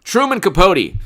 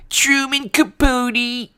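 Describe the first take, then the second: First: Said in the usual way. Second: Very high, slow, drawn-out affected voice; hammed-up high impression, half speed; Truman Capote. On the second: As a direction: stretch it out in a high mannered whine. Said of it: "who's the actor a long time ago who talked like this".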